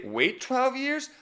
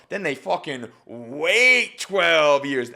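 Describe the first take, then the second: First: High, slow rising question on "twelve"; questioning imitation. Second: Slow, falling statement leaning on "wait"; resolved statement. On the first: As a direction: mimic her unsure questioning tone on "Wait twelve years?". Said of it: "So, so you say". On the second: Shown as a demonstration. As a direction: state "fucking wait twelve years" slowly and firmly as a fact. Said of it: "now we know to be".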